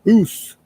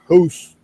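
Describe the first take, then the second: First: It is said in a Canadian accent. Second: The same.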